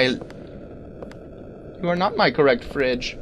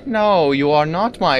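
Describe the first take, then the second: First: Mock robot voice. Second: Said in the usual way. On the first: Player mocking the game's wrong-fridge voice as a slow drone. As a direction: intone it like a cold machine.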